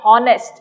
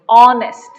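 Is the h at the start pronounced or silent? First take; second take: pronounced; silent. First: The word starts with an audible h sound. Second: The word starts with a vowel, h silent. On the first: The speaker calls it wrong. "You're not saying honest, no" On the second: The speaker calls it right. "You're saying honest"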